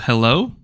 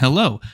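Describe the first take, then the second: First: The voice sounds full and clear. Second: The voice sounds thinner and less clear. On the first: "this is the front of the microphone" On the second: "this is the back of the microphone"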